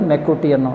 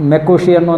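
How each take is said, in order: First: The middle consonant is a t sound. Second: The middle consonant is an sh sound. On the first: "ಮೆಕ್ಕುಟಿಯನ್ ಅಂತಲೂ ಪ pronounce ಮಾಡ್ತಾರೆ" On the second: "ಮೆಕ್ಕುಶಿಯನ್ನು ಅಂತಾರೆ"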